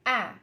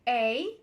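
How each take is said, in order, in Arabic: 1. الحرف بيتقال بصوته المعتاد. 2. الحرف بيتقال باسمه في الأبجدية. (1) "النطق بتاعه غالبا بيبقى A" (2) "اسم الحرف A"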